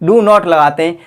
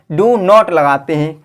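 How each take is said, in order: First: Said in the usual way. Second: Drawn out, every word weighed; slow emphatic answer. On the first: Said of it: "quick repeat of the answer". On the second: Shown as a demonstration. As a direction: spell out the answer slowly for the class. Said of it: "teacher repeats the key answer". (धीरे, ज़ोर देकर)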